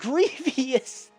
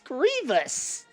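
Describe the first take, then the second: First: The name has an extra syllable before the ending. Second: The name has no extra syllable before the ending. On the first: The speaker calls it wrong. "It's not Grievous" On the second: The speaker calls it right. "It's Grievous"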